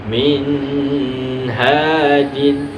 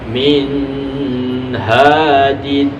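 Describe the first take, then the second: The two takes are said the same way.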